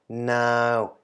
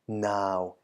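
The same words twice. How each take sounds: First: The syllable is said with a mid tone. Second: The syllable is said with a low tone. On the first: "middle tone version" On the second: "the deep or low version first"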